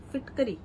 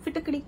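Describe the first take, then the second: First: फिटकरी with a plain tapped र; फिटकरी with र, not retroflex ड़; plain र pronunciation. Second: फिटकड़ी with a retroflex flapped ड़; फिटकड़ी with ड़, not a plain र; flapped ड़ pronunciation. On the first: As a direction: say फिटकरी, tongue tip forward on the र. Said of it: "बहुत लोग फिटकरी बोलते हैं". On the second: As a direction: say फिटकड़ी, tongue curled back on the ड़. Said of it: "Hindi में बोलते हैं फिटकड़ी". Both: Shown as a demonstration.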